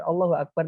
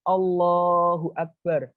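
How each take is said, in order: First: Said in the usual way. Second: Long drawn-out, exalting takbir; reverent glorifying. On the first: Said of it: "duduk sekedar Allahu Akbar nang lambito". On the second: Shown as a demonstration. Teacher shows how to glorify God in prayer, reverent and drawn-out. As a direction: stretch out the name of God in reverence. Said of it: "Lek kita mengucapkan pengagungan".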